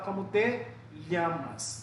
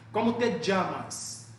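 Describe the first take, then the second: First: It is spoken in a Spain Spanish accent. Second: It is spoken in an Argentine Spanish accent. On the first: "Se você for para a Espanha, ele vai falar" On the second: "Você vai escutar o argentino falando"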